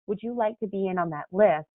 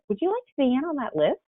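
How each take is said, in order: First: The voice falls at the end. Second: The voice rises at the end. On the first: The speaker sounds sure of themselves. The speaker calls it right. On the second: The speaker sounds doubtful. The speaker calls it wrong.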